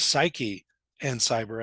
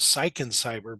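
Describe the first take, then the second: First: The first word has two syllables. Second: The first word has one syllable. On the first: The speaker calls it right. "the actual name of the of the publication is Psyche and Cyber" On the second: The speaker calls it wrong. "I said it was Psych and Cyber"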